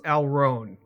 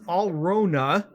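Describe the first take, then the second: First: It is pronounced the English way. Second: It is pronounced the German way. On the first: "in the common English version" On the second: "in actual true German"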